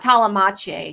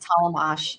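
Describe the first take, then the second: First: The surname ends with a different, altered sound. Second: The surname is said plainly, as it is spelled. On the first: The speaker calls it wrong. "it's just not Talamache" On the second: The speaker calls it right. "just Talamash"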